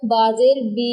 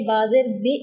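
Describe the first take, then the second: First: बी stretched out long; over-lengthened vowel. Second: बी cut short with a glottal jolt; jerked short vowel. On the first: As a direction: hold the closing बी too long. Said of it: "लंबा भी नहीं करेंगे". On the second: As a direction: end बी abruptly on a catch. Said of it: "ऐसे करके नहीं पढ़ेंगे". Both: Shown as a demonstration.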